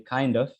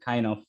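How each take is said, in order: First: The d sound links into the next word. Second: The d sound is left out entirely. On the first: "it's a linking and it is kind and ends with the d sound" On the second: "delete the d sound"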